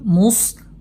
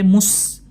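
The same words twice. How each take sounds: First: The s sound is heavy and velarized. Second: The s sound is thin and light. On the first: The speaker calls it right. "Jadi dibaca dengan tebal" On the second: The speaker calls it wrong. "jangan sampai mus tipis"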